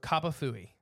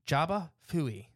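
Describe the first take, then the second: First: The name begins with a K sound. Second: The name begins with a J sound. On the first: "I have a little pronunciation guide for that one" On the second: "Jaba is also correct depending on where you're at"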